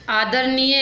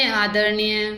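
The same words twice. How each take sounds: First: आदरणीय with plain "n"; dental n. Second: आदरणीय with curled-tongue "ṇ"; retroflex n. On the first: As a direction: say आदरणीय as "aadarniye", tongue on the teeth. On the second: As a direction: curl the tongue back for the n in आदरणीय. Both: Shown as a demonstration. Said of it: "नए और अनय संबंधी".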